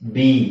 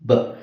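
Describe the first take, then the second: First: The letter name is said with a vowel. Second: Only the short consonant sound is said. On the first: The speaker calls it wrong. "ನಾವು ಇದನ್ನ ಹೆಂಗ್ ಹೇಳ್ತಿದ್ವಿ?" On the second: The speaker calls it right. "But ಇಲ್ಲಿರೋದೇನು?"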